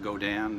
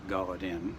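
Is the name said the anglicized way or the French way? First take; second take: French; anglicized. First: The name is said with French pronunciation. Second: The name is said with English pronunciation. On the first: The speaker calls it right. "That's pronounced Godin" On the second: The speaker calls it wrong.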